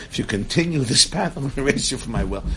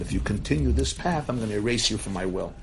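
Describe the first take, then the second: First: Firmer, punchier retold threat; fearless warning. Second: Said in the usual way. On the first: Grandfather warns his son in the meeting, fearless. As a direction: deliver the ultimatum with brisk, fearless force. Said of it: "Classic Holocaust survivor who's fearless". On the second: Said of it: "he told his son that".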